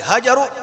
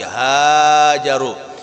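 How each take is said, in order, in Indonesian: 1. Vokal pertama pendek. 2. Vokal pertama panjang. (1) "Bukan lagi"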